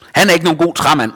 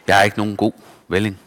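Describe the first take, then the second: First: Mocking crowd. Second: Resigned echo. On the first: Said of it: "sagde de". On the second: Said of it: "vil han sige". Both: A narrator's reading.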